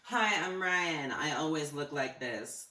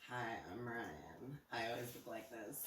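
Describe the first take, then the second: First: It is said loudly. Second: It is said quietly.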